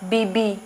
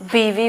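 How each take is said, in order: First: The middle consonant is a b sound. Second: The middle consonant is a v sound. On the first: The speaker calls it wrong. "बीबी क्या होता है भाई?" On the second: The speaker calls it right. "बीवी होती है"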